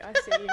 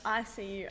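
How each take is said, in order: First: Squeaky high-pitched "I see you". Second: Said in the usual way. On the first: Acted. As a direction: pitch it way up, playfully. Teasing repeat of I see you.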